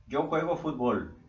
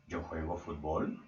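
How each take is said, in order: First: "Yo juego fútbol" as a flat statement, falling firmly on "fútbol"; affirmative statement. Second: "Yo juego fútbol" asked softly and lower, rising on "fútbol"; question tune. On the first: Teacher models an affirmative sentence for students, firm falling statement. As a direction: state "Yo juego fútbol" plainly, voice dropping at the end. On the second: Teacher models the interrogative for students, slow rising question. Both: Shown as a demonstration.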